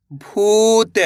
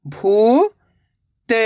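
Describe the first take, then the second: First: भूत joined, long ऊ; blended word. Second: भू, long pause, त; भूत split slowly, rising first syllable. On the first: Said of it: "तो मिलके बन जाएगा". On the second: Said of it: "एक अक्षर का उच्चारण करना है". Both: Shown as a demonstration.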